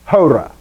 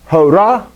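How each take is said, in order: First: The stress is on the first syllable. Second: The stress is on the second syllable. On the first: The speaker calls it right. "just emphasize that syllable" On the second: The speaker calls it wrong. "it's not hora"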